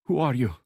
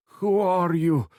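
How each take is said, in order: First: Louder and higher, teeth bared; snarled demand. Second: High, loud and slow, every word pushed out; a freed hostage demanding answers; fierce demand. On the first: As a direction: snap it back like a cornered animal. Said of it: "the woman repeated, teeth bared like an animal". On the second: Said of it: "she demanded". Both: A narrator's reading.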